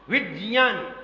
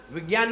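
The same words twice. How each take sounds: First: विज्ञान said as "vid-jnyaan"; corrected pronunciation. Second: विज्ञान said with g, "vigyaan"; rejected pronunciation. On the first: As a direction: say विज्ञान with a stop, then j, not g. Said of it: "वो सही है". (विज्ञान को "विज्-ज्यान" जैसा बोलते हुए) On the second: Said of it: "विज्ञान नहीं बोला जाता". (विज्ञान को "विग्यान" बोलते हुए) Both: Shown as a demonstration.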